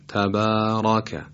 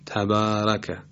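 First: The r and following vowel sound heavy and thick. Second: The r and following vowel sound light and thin. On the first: The speaker calls it right. "هم را رو درست دارم تلفظ میکنم و هم فتحه رو با تفخیم" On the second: The speaker calls it wrong. "اگر مثلا تبارکه رو با ترقیق ادا بکنیم باید بگیم"

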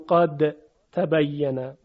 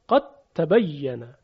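First: The d is pronounced separately before the t. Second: The d merges completely into the following t. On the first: The speaker calls it wrong. "اینجا دیگه نمیگیم قاد تبینه" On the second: The speaker calls it right. "بلکه دال رو در حرف تا ادغام میکنیم"

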